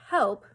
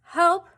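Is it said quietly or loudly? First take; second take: quietly; loudly. First: It is said quietly. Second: It is said loudly.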